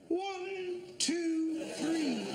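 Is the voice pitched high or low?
high. It is said with the voice pitched up.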